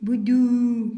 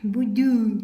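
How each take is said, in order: The two takes are said the same way.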